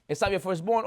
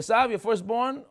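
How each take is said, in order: First: "Esav" kept light, the weight lands on "firstborn?" with a rising question; stress on firstborn. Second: "Esav" pushed up and stressed, then "your firstborn?" asked with a rise. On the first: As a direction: split "Esav" off and lean on "firstborn". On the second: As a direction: lean on "Esav" to dodge the lie. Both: Retold or imitated. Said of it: "All types of ways to try and f-, go around the words".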